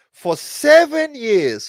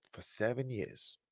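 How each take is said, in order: First: "seven" hit high and loud, said slowly; stress on seven. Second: "For seven years" dropped soft and low; quiet repeat. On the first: Father telling viewers how long he lost his kids, "seven" stressed loud and slow. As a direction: drag out "For seven years" with weight on "seven". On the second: Father repeating the years apart to himself, soft and low. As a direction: echo "For seven years" under the breath. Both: Real, not acted.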